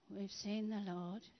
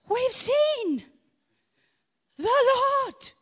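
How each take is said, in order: First: It is said in a flat, dull tone. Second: It is said in an excited tone.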